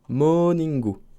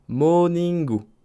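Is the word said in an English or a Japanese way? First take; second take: Japanese; Japanese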